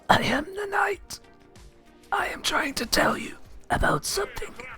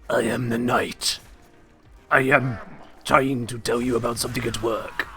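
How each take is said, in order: First: A whispered Batman voice, close to the microphone. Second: A deep Batman voice, not whispered.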